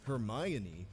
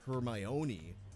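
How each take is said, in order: First: The stress falls on the 'my' syllable. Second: The stress falls on another syllable. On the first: The speaker calls it right. "her name is pronounced Hermione, ... it's on the my" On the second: The speaker calls it wrong. "not Hermione"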